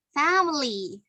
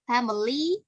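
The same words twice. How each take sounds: First: "family" with a long, strong FAM; front-stressed "family", falling at the end; stress on first syllable. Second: "family" with the last syllable lifted; "family" said with end stress, left hanging upward. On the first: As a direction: hit the first syllable of "family", let "ly" fall away. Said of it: "the best one adalah family". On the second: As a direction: lean on the final "ly" of "family", rising. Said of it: "some people ada bilang gitu". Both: Shown as a demonstration.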